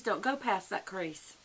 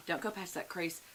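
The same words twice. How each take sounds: First: Slow, weighted "go" in "don't go past that crease"; firm warning. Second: Said in the usual way. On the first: Shown as a demonstration. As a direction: lay down the rule slowly. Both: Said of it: "for us older ladies".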